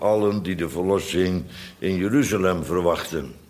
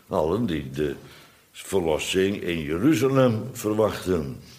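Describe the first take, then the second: First: The phrase is read with a plain, neutral melody. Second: Stress and pitch set apart 'in Jeruzalem'.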